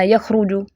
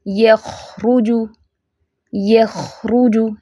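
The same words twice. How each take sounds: First: यखरुजु quick, with a short kh; rushed reading. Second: यखरुजु very slow, kh allowed to flow; unhurried recitation. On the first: Teacher shows what not to do, rushed reading. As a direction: hurry through यखरुजु without lingering on kh. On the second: Teacher models not rushing the word, slow recitation. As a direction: linger on the kh in यखरुजु. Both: Shown as a demonstration. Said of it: "इसको जल्दी नहीं जाना".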